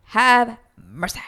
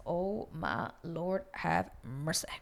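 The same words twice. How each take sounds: First: Slow, loud mock plea; emphatic dismay. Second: Slow, soft mock prayer; hushed dismay. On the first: Viewer reacting to his confession, loud emphatic dismay. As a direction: belt it out slowly, pitch raised. Repeats her reaction, much louder. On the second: Viewer reacting to his confession, hushed dismay. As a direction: say it slowly under your breath.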